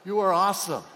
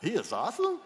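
First: Loud, firm declaration; loud confident "You are awesome"; emphatic affirmation. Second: Rising incredulous shout; mocking incredulous question; doubtful mock retort. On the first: Shown as a demonstration. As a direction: proclaim it boldly. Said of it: "Don't say it like that". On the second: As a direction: scoff at it out loud. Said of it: "some of you are thinking".

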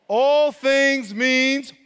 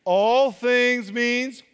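First: "All" drawn out long and loud, very slow; slow emphatic "All things means"; stress on all. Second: "All" stretched, very slow and firm; a slow, deliberate retry with "All" held; stress on all again. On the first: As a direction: lean hard on "All". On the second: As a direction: hold "All" and lean on it. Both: Shown as a demonstration. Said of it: "let's try that one more time".

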